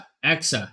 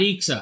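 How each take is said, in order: First: The middle letter is said as X. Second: The middle letter is said as K. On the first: The speaker calls it right. "I want to say E K A and it's E X A" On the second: The speaker calls it wrong. "not E X A"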